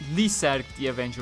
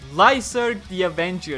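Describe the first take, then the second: First: The name is pronounced the Japanese way. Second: The name is pronounced the English way.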